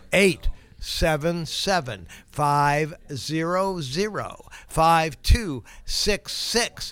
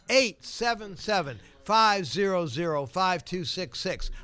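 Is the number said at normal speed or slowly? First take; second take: slowly; normal speed. First: The number is said slowly. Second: The number is said at normal speed.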